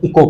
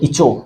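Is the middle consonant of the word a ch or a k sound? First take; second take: k; ch. First: The middle consonant is a k sound. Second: The middle consonant is a ch sound. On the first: The speaker calls it right. "इसको तो पढ़ते हैं इको पढ़ते हैं" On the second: The speaker calls it wrong. "इसको क्या पढ़ते हो"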